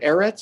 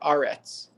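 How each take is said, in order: First: The first vowel is an 'e' sound. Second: The first vowel is an 'a' sound. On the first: This is the ordinary form of the word. "Eretz is the standard form" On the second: The word ends a clause or verse. "Aretz is the pausal form"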